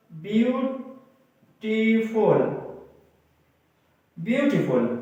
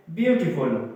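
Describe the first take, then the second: First: "beautiful" very slow, split with pauses; syllable by syllable. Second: Said in the usual way. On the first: Shown as a demonstration. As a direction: draw out "beautiful" in separate parts. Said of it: "किसी लफ्ज को तोड़ें". (Beautiful को धीरे-धीरे तोड़कर) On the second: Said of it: "मसलन एक और लफ्ज है".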